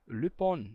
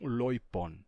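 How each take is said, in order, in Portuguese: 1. A vogal é pronunciada como um u simples. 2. A vogal é pronunciada como o ditongo oi. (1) "É lupon" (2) "não loipon"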